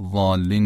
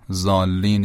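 First: "ضالین" opening on a heavy, emphatic ḍād, not z; correct Arabic ḍād. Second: "ضالین" opening on a light Persian z sound; mispronounced with plain z. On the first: Teacher showing the right way in prayer, "ضالین" with emphatic ḍād. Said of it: "اگر با زاد، صاد زاد تلفظ بکنیم". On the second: Teacher showing the mistake that changes the meaning, "ضالین" with plain z. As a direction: say "ضالین" as zaallin, thin z and long aa. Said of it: "اما اگر با رزه تلفظ بکنیم". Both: Shown as a demonstration.

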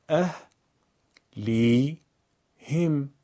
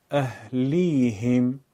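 First: اه، لی، هم as three separate syllables; syllable-by-syllable reading. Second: اهلیهم in one slow, unbroken flow; joined-up reading. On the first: Teacher eases a hard word: اه، لی، هم one piece at a time. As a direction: pause after each part: اه، لی، هم. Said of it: "بخش خوانی کنید". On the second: Teacher puts the pieces together: اهلیهم drawn out as one word. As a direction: run اهلیهم together, stretching it without pauses. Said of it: "پس از اون به صورت پیوسته قرائت کنید". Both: Shown as a demonstration.

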